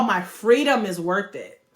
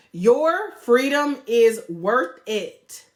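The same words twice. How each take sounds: First: Said in the usual way. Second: "Your" hit hard, very slow, each word apart; stress on YOUR. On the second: Shown as a demonstration. Coach turning the point on the viewer, slow stress on "Your". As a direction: lean into "Your" and draw it out.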